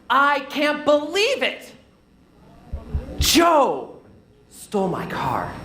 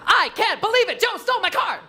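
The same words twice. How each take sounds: First: Small pauses break up the sentence between words. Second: Every word is stressed evenly, without small pauses. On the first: The speaker calls it right. "you paused in places" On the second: The speaker calls it wrong. "when we stress every single word"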